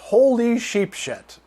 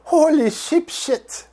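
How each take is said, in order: First: It is said in a plain American accent. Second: It is said in a French accent.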